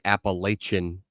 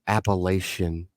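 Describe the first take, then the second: First: The middle consonant is a hard 'ch' sound. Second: The middle consonant is a soft 'sh' sound. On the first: The speaker calls it right. "It's a hard C H" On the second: The speaker calls it wrong. "It is not"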